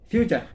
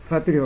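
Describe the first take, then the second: First: It is said as two syllables, fyoo-cher. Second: It is said as three syllables, fah-too-ree. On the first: The speaker calls it right. "তার সঠিক উচ্চারণ হবে ফিউচার" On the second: The speaker calls it wrong. "এটার উচ্চারণ ফুতুরি হবে না ফাতুরি হবে?"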